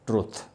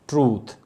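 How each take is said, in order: First: The vowel is short. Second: The vowel is a long oo. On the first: The speaker calls it wrong. "it is commonly pronounced as truth" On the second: The speaker calls it right. "ऊ sound है... ये long vowel sound है"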